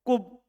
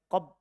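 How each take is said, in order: First: The first vowel is a u. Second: The first vowel is an a. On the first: It is the form heard from native Arabs. "kub di dhammah fa-nya" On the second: It follows the regular pattern. "Tidak apa-apa kita baca qab"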